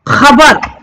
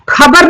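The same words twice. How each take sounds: First: The first sound is a rough throat friction. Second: The first sound is a plain aspirated k. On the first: The speaker calls it right. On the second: The speaker calls it wrong.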